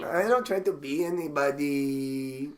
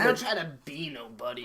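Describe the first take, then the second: First: Slow echo with a long-held last word; drawn-out mock protest. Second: Put-on protest at an easy pace; mock defensive comic. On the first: Echoing the comic's defence, slow mock drawl. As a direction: stretch the protest out, holding the final vowel. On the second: Comic defending his stage self, lightly put-on protest.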